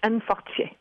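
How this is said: The name is said with a French accent.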